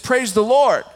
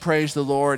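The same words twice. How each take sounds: First: It is said as a firm, forceful demand. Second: It is said as a mild, generic phrase.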